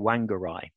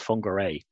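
First: The name is said as English spelling suggests. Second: The name is said with Maori pronunciation. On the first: The speaker calls it wrong. "anybody looking at it in English would say Whangarei" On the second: The speaker calls it right. "the Maori pronunciation of the word"

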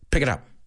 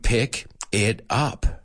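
First: The three words run together as one. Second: The three words are said separately. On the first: The speaker calls it right. "It's one sound all together" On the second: The speaker calls it wrong. "It's not like pick it up. It's not three sounds"

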